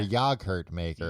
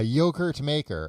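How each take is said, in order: First: Yogurt is said with a British pronunciation. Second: Yogurt is said with an American pronunciation.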